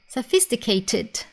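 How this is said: It is said with a British accent, clear T. "in British English, you will hear the T sound more clearly"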